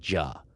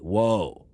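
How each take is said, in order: First: The name begins with a j sound. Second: The name begins with a w sound. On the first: "The most classic way it's written is J U H. You would pronounce it Ja" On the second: "Another book will write it as W H O A"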